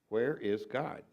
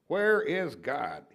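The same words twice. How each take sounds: First: It is said more sternly and louder. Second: It is said sternest with the voice raised most.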